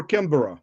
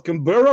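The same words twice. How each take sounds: First: Canberra said "CAM-bera"; first-syllable stress. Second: Canberra said "can-BERR-a"; full three-syllable pronunciation. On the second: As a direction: stress the middle syllable of Canberra. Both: Shown as a demonstration. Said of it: "how do you pronounce".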